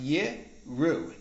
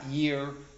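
First: The word is said as yir'u. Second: The word is said as yiru. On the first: It is a command to fear or revere. The speaker calls it right. "Vav is pronounced Yiru" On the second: It means they will see. The speaker calls it wrong. "not Yiru. Yiru means they will see"

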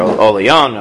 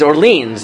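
First: The name is said with a French pronunciation. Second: The name is said with an American pronunciation. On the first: "if you wanted to say it in French" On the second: "no, like, it's Orleans. Like, pronounce it like an American"

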